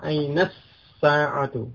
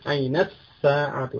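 The two takes are said the same way.

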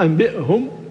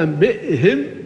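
First: The ha sound carries a u vowel. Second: The ha sound carries an i vowel. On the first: "بضم الهاء" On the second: "بكسر الهاء موافقة ومطابقة لكسرة الباء قبلها"

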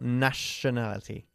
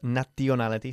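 First: The 'tion' part has a 'sh' sound. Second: The 'tion' part has no 'sh' sound. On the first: The speaker calls it right. "este sonido siempre se pronuncia como una sh" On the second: The speaker calls it wrong. "No decimos nationality"

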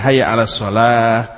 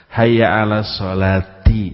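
First: The last word stops on a final 'h'. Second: The last word ends with the syllable 'ti'.

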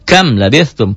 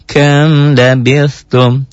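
First: The m is cut off with an abrupt jolt. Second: The m flows smoothly into the next word. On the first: The speaker calls it wrong. "Kok dihentak? Dihentak itu cara latihan saja" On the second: The speaker calls it right. "Tapi enggak boleh dihentak bacanya"

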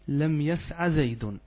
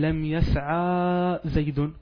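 First: The verb ends in a short a vowel. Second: The verb ends in a long a vowel. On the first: The speaker calls it right. "لا تأتين فقط بفتحة، تقولين" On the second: The speaker calls it wrong. "لا تقول لم يسعى زيد، هذه ألف"

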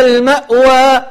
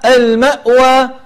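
No difference in how they are said.

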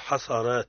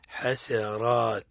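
First: The s sound is heavy and emphatic. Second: The s sound is light and thin. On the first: The speaker calls it wrong. "لا نقول حصرات" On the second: The speaker calls it right. "السين مرقق"

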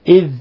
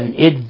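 First: The word ends with a soft 'th' sound. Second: The word ends with a hard 'd' sound. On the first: The speaker calls it right. "نلاحظ إظهار الذال إذ" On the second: The speaker calls it wrong. "ولا نجعلها دالا إذ"

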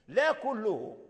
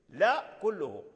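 Both takes have the same delivery.

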